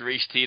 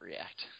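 First: The name sounds like 'reach' followed by 'tee'. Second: The name sounds like the ordinary word 'react'. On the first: It is read straight from the spelling. The speaker calls it wrong. "It's R-E-A-C-H-T. It's Reach T to me" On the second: It follows how the makers say it. The speaker calls it right. "If they want to call it React, then we'll call it React"

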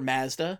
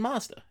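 First: It is said the way Toronto ads say it. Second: It is said the speaker's usual American way.

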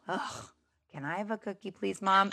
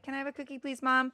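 First: It is said with a grudging, exasperated sigh. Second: It is said in a calm, neutral tone.

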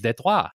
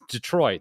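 First: The name is said with a French pronunciation. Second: The name is said with an English pronunciation. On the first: It follows the word's original language. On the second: It follows the usual local usage.

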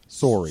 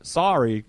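First: Sorry is said with a Canadian vowel. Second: Sorry is said with an American vowel. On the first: The speaker calls it right. "we say" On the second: The speaker calls it wrong. "Sorry seems to have creeped into some sort of like American take on it"

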